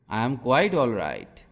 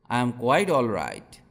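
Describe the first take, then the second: No difference in how they are said.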